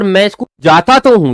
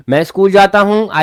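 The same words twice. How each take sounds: First: तो hit hard and loud with a falling tune; "जाता तो हूं" with तो stressed loud and falling; emphatic stress. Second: Said in the usual way. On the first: Shown as a demonstration. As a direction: insist on it, landing on तो. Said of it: "ये emphatic है". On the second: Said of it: "normal".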